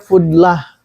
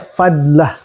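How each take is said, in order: First: The first vowel is a 'u' sound. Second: The first vowel is an 'a' sound. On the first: The speaker calls it wrong. "Ada yang nyebutnya fudlah" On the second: The speaker calls it right. "lebih kuat itu fadlah. Di cara bacanya fadlah"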